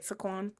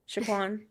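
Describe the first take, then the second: First: The name begins with a plain s sound. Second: The name begins with an sh sound. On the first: "How do we say it right" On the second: "Is it Shaquan with an H"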